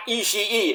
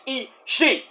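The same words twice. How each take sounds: First: "Ishii" with a drawn-out extra ee at the end; wrong pronunciation. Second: "Ishii" as two parts, ee, shee; correct pronunciation. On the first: Fan showing the announcers' error, "Ishii" as ee-shee-ee. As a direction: stretch "Ishii" into ee-shee-ee, the faulty way. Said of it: "It's not Ishii". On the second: Fan correcting the announcers, "Ishii" as ee-shee. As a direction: split "Ishii" cleanly into ee and shee. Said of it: "It's Ishii". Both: Shown as a demonstration.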